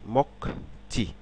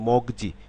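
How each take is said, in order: First: The middle consonants sound voiceless, like k and ch. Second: The middle consonants sound voiced, like g and j. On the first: This is how the whole word is actually said. The speaker calls it right. "শব্দে ওটা উচ্চারণ হবে মকচি" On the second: Each syllable is read on its own. The speaker calls it wrong. "আমি সিলেবেল অনুসারে যদি উচ্চারণ করি"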